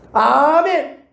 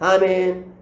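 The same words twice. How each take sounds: First: It is said fervently, with strong feeling. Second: It is said flatly, as a mere formality.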